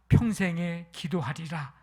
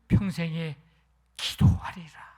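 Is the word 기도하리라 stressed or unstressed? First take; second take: unstressed; stressed. First: No word gets extra stress. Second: The word 기도하리라 gets extra stress.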